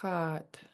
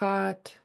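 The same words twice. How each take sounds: First: The word is said with a low tone. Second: The word is said with a high tone. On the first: It means spruce root. "spruce root is low tone" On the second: It means fish. "fish, is high tone"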